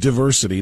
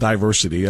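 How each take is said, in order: First: The first vowel is a short 'ih' sound. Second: The first vowel is a long 'eye' sound. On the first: The speaker calls it right. "It is pronounced diversity" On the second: The speaker calls it wrong. "it's not with a long I"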